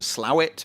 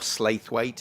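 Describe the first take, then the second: First: The name sounds like two short syllables, 'slow-ett'. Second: The name sounds like 'slaith-wait', with full syllables.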